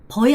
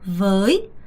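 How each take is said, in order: First: The word begins with a b sound. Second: The word begins with a v sound. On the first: The speaker calls it wrong. "버이 안 돼요" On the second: The speaker calls it right. "với, với, với, 오케이"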